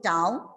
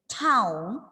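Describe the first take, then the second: First: The t is said without a puff of air. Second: The t is said with a puff of air. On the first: The speaker calls it wrong. "You won't feel anything" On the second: The speaker calls it right. "you can feel the air"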